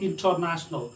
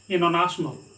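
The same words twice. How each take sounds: First: The t after n is pronounced. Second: The t after n is silent. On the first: The speaker calls it wrong. "This one is not international" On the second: The speaker calls it right. "This one is international"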